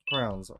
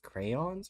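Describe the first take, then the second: First: The word is said with one syllable. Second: The word is said with two syllables. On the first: The speaker calls it wrong. "I've been told I say crowns wrong" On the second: The speaker calls it right. "you're supposed to say it's crayons"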